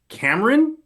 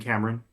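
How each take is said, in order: First: The voice rises at the end, like a question. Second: The voice falls at the end, like a statement. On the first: It checks that the name is right. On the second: It welcomes the person by name.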